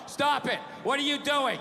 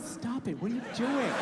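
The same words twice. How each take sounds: First: It is read out in a flat, monotone voice. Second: It is said in a teasing, playful tone. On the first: The refusal sounds like a serious no. "you get a bad read" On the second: The refusal is not meant seriously. "that's not a fucking no"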